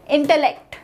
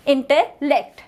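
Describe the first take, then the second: First: Said in the usual way. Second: "intellect" said in two parts, inte, pause, lect; word split into parts. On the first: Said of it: "How to pronounce it?". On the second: Shown as a demonstration. Teacher showing the syllables, "intellect" split as inte, lect. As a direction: break "intellect" before its last syllable, lect. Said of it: "The primary syllable of the word".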